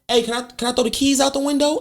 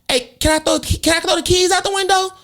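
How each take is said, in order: First: It is said in the speaker's normal voice. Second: It is said in an imitated child's voice.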